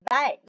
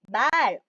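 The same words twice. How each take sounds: First: The vowel is said short. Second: The vowel is said long. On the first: It means the animal, a horse. "짧게 발음했고요" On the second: It means language or speech. "얘는 장음, 길게 발음하라는 표시입니다"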